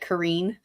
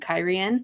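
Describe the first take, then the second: First: The name sounds like 'Kareen'. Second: The name sounds like 'Kyrian'. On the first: The speaker calls it wrong. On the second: The speaker calls it right.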